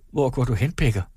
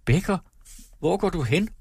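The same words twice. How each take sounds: First: Said in the usual way. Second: Higher, alarmed calling out; pale, frightened cry. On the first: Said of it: "spurgte Elinor". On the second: A narrator's reading. Wife crying after her leaving husband, frightened. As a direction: cry it after him in sudden fear. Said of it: "råbte hun bleg".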